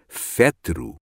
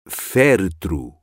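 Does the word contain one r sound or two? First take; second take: one; two. First: The word has one r sound, after the t. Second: The word has two r sounds, before and after t. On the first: The speaker calls it wrong. "Pronunciei erradamente a palavra féretro. Saiu, imaginem, qualquer coisa como fétero" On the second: The speaker calls it right. "Féretro e não fétero"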